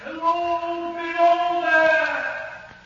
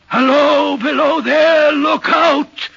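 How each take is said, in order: First: High, long-drawn call, softened by distance; distant crying-out voice. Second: High, loud, sustained shout; shouted warning. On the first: Voice the signalman heard one moonlight night, distant drawn-out cry. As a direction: call slowly from far off, stretching each word. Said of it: "I heard a voice cry out". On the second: Signalman repeating the figure's cry near the tunnel, loud shouted warning. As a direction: call out urgently, stretching into a warning. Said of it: "the voice seemed hoarse with shouting". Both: Acted.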